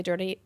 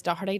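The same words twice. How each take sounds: First: "Dirty" said the Derry way, clipped to "Dirty"; Derry pronunciation. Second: "Doherty" said with its full Belfast sound; Belfast pronunciation. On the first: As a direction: say "Dirty" as Derry folk say Doherty. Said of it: "in Derry we say Dirty". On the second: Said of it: "but in Derry we say Dirty". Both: Shown as a demonstration.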